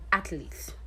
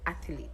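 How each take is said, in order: First: Athlete said as ATH-leet, no vowel before the L; right pronunciation. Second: Athlete said as ATH-uh-leet, with an extra vowel; wrong pronunciation. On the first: Teacher contrasting for students the right way: athlete. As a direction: athlete the right way, with two syllables. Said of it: "no vowel between the T H and the L". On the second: Teacher contrasting for students the wrong way: athlete. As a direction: athlete the wrong way, three syllables. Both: Shown as a demonstration.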